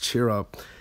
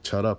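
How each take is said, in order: First: The first word is long, ending in an r sound. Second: The first word is clipped, ending in a t sound. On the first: This is how it should be said. The speaker calls it right. "It's cheer up" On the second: This imitates how others mispronounced it. The speaker calls it wrong. "they kept pronouncing it like chut up"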